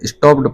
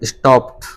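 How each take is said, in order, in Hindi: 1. अंत का -ed t जैसा सुनाई नहीं देता। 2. अंत का -ed सादे t जैसा सुनाई देता है। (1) "जिसे आप अभी तक स्टॉप्ड पढ़ते आ रहे थे, गलत था वो" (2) "तो इसको पढ़ा जाएगा स्टॉप्ड"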